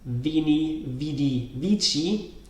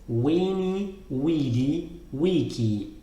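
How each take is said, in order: First: Each word begins with a V sound. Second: Each word begins with a W sound. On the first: This is the ecclesiastical pronunciation. "That's the traditional traditional Italian pronunciation, or the ecclesiastical pronunciation" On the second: This is the classical pronunciation. "So it's always w, w, w, not v, and this is a k and not a ch"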